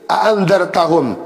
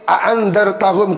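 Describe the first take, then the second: First: The second glottal stop is softened, not full. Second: Both glottal stops are fully pronounced. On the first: "dan membaca tashil" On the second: "dengan dibaca tahqiq a'andzartahum kedua hamzahnya"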